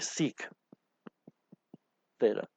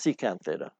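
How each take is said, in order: First: The first word is said in shortened form. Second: The first word is said in full. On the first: The speaker calls it wrong. "I've never heard anybody say sec theta" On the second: The speaker calls it right. "It's secant theta"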